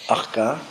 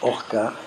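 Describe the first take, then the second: First: The word begins with an open 'a' vowel. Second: The word begins with a rounded 'o' vowel. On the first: "Ça se prononce de deux manières" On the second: "Ça se prononce de deux manières"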